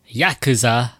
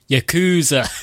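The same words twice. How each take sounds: First: It is said with a British pronunciation. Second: It is said with an American pronunciation. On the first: "It defaulted to British pronunciation" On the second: "you can choose American pronunciation"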